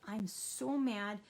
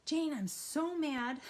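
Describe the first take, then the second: First: Slow, calm, steady statement; a slow, even "I'm so mad"; calmly. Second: Higher, louder, slow mock-angry blurt; a louder, higher, slower "I'm so mad"; angry outburst. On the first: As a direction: say it calmly after coping. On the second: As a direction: blurt it out hot before calming down. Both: Shown as a demonstration. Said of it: "you're gonna say it a little calmly".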